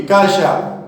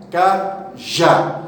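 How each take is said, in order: First: Said in the usual way. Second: "cajá" slowly split as ca, já; syllables split. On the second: Shown as a demonstration. Teacher shows students the strong syllable, "cajá" syllable by syllable. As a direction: break "cajá" in two, landing on já. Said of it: "O já é a sílaba forte".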